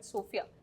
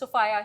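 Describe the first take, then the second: First: The middle vowel sounds like 'fee'. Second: The middle vowel sounds like 'fye'. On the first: This is how it is said in one town. "in Saharanpur we call it सोफिया" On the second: This is how it is said in another city. "It's सोफाया here"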